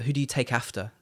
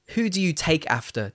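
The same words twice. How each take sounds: First: The stress falls on after. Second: The stress falls on take, not after.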